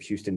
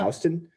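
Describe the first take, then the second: First: It is pronounced like the Texas city's name. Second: It is pronounced the New York street way. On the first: It names the city in Texas. "which I think of Houston, Texas" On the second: It names the street in New York. "but it's pronounced"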